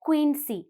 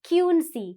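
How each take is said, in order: First: The Q is said as 'kw'. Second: The Q is not said as 'kw'. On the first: The speaker calls it right. "what's the sound of Q? Qu" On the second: The speaker calls it wrong. "You don't say Quincy"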